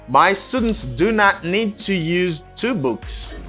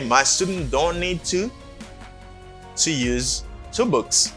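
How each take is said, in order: First: "Do not" is said as two full words. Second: "Do not" is contracted to "don't".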